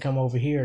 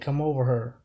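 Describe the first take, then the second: First: The last word has the vowel of 'here'. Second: The last word has the vowel of 'her'. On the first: "instead of saying come over here" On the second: "they say come over her. That's how people talk in Saint Louis"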